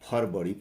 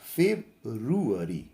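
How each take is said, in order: First: The word is said with two syllables, farvari. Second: The word is said with four syllables, feb-ru-a-ry. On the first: The speaker calls it wrong. "इसको हम लोग फरवरी पढ़ते हैं" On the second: The speaker calls it right. "सही उच्चारण या pronunciation होता है फेब्रुअरी"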